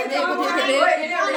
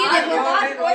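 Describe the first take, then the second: First: Slow, stretched-out calling to look; slow, stretched call to look at Pari; slow drawn-out look. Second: Laughing look. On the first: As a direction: draw each word out slowly. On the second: Pointing out Pari, laughing. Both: Real, not acted.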